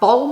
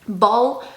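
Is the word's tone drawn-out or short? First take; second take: short; drawn-out. First: The word has a short, clipped tone. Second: The word has a long, drawn-out tone. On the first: It means a ball where people dance. "met a stoottoon with a shorter tone" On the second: It means a football. "with a sleeptone"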